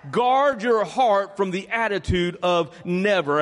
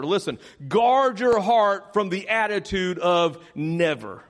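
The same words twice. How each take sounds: First: Slow unison repeat, same weight on each word; repeated with the church. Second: Slow, deliberate, every word weighted; slow emphatic phrase. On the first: Congregation repeats the pastor's line, slow and steady. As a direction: say it together, slowly and firmly. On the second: Pastor sets the line for the congregation, slow and deliberate. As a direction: spell it out slowly for the church to repeat. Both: Shown as a demonstration. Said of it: "Say that with me".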